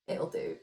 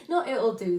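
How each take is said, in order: First: It'll do, breathed through a laugh; laughing shrug. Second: Not hit loud and firm, then it'll do falls; stress on Not. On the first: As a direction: toss off it'll do with a giggle. Shrugs off her own effort. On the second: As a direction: correct yourself by punching Not. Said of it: "that makes it sound like I'm not putting effort". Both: Real, not acted.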